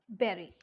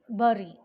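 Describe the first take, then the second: First: The first vowel matches the vowel in 'bed'. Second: The first vowel differs from the vowel in 'bed'. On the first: This is how native speakers say it. The speaker calls it right. "as a native English speaker speaks, it is bury" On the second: This is how non-native speakers tend to say it. The speaker calls it wrong. "We tend to pronounce bury"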